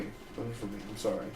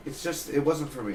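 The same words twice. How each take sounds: First: "It wasn't for me." repeated much softer, almost to himself; quiet repeat. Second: Said in the usual way. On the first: Real, not acted. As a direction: drop the volume and say "It wasn't for me." under your breath.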